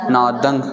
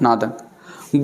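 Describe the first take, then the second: First: नादंग with a nasal ng ending, not न; pron. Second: नादंग slow, ending in ng; pron. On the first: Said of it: "ङङे जे स्वरूप में उचारण थींदी". (नादंग ङङे सां) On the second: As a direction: stretch नादंग, closing on ङ. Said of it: "नादन न पढ़ंदासीं". (नादंग, नादन न) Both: Shown as a demonstration.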